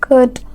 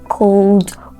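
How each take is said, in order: First: The word is said without any L sound. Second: An L sound is pronounced in the word. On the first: The speaker calls it right. "They are correctly pronounced could" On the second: The speaker calls it wrong. "these words are not pronounced cold"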